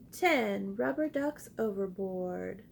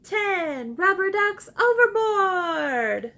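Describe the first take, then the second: First: Said in the usual way. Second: Loud, high and slow excited call; excitedly. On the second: Shown as a demonstration. Teacher leading the class excitedly. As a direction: shout it out with big excitement. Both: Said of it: "Say it excitedly with me".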